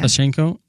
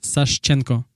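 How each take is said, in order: First: The name is said the English way. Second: The name is said the Russian way.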